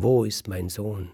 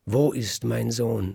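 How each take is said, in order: First: A slightly raised, mild mock cry; a mother's lighter cry for her son; smith's wife calls for her baby, less loud; milder frantic cry. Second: Higher, louder, slow cry for her son; a mother waking to find her baby gone, crying out; frantic cry. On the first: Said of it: "schreit die Frau des Schmieds". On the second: Acted. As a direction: call out for the missing child in alarm. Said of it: "schreit die Bäckerin".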